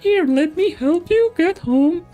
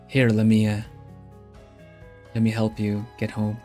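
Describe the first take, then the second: First: It is spoken in a put-on character voice. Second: It is spoken in the speaker's ordinary voice. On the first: "but he would more like" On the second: "I say it with this voice"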